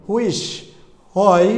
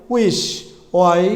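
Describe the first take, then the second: The two takes are said the same way.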